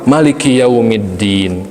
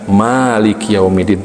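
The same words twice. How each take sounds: First: The first vowel of Maliki is short. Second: The first vowel of Maliki is long. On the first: The reading names the ruler of the Day of Judgment. "Ada juga yang membaca maknya pendek" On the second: The reading names the owner of the Day of Judgment. "bukan Maliki Yaumiddin, tidak begitu"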